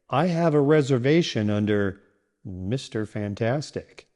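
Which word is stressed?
Fantastic. The stress falls on the last name. The name the booking is under matters most. The speaker calls it right. "this sounds natural because it highlights what's important, your last name"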